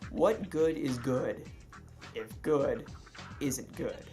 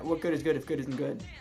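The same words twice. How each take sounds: First: It is said at a normal, even pace. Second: It is said quickly, words running together.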